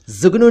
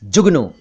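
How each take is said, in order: First: जुगनू said as "zugnu"; wrong z sound. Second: जुगनू said as "jugnu"; correct j sound. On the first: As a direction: begin जुगनू with z instead of j. (जुगनू का ग़लत उच्चारण, ज़ से) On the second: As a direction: begin जुगनू with j, not z. (जुगनू का सही उच्चारण, ज से) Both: Shown as a demonstration. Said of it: "उच्चारण मैं बता रहा हूं".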